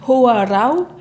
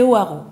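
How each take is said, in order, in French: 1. Toutes les lettres, y compris les finales, sont prononcées. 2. Les lettres finales restent muettes. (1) "en tahitien, ... on prononce absolument toutes les lettres" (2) "en réunionnais, c'est"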